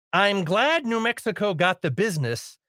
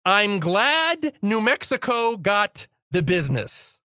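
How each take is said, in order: First: Said in the usual way. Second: Slow, weighted repeat with glad stressed. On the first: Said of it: "uh, quote". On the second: Shown as a demonstration. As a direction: lean on glad mockingly, slowly.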